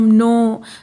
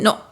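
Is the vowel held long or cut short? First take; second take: long; short. First: The vowel is held long. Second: The vowel is cut short. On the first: The speaker calls it right. "Vowel को long pronounce करते हैं" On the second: The speaker calls it wrong. "ऐसा नहीं, no इस तरह नहीं बोल रहे हैं हम"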